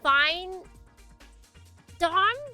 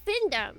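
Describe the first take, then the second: First: The first syllable sounds like 'fine'. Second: The first syllable sounds like 'fin'. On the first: "do you say fine Dom?" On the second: "Or do you call it Findom?"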